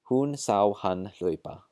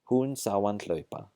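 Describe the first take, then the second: First: The h at the start of hann is pronounced. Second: The h at the start of hann is dropped.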